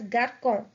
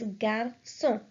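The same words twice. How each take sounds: First: The c is pronounced like a k. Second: The c is pronounced like an s. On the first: The speaker calls it wrong. "if we remove this accent from the C, it would be pronounced as" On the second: The speaker calls it right. "So the word will be pronounced as"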